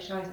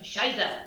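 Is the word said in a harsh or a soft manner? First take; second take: soft; harsh. First: It is said in a soft, non-Germanic way. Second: It is said in a harsh, Germanic way. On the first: The speaker calls it wrong. "You can't go Scheiße. It doesn't" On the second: The speaker calls it right. "say it in a Germanic way"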